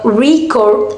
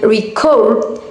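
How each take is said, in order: First: The stress is on the first syllable. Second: The stress is on the second syllable. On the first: It is a noun. "record as noun" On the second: It is a verb. "record as verb"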